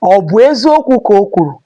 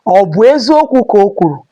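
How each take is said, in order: First: It is said with a question tune. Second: It is said with a question tune.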